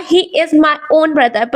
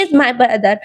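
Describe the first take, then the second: First: "own" said slowly and leaned on, a slight push; stress on own. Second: Said in the usual way. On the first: Shown as a demonstration. Teacher showing emphasizing adjectives to students, stress on "own". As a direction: lean on the word "own" so it stands out. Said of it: "थोड़ा सा जोर दिया इस पे". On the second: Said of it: "वह बोल सकता था कि".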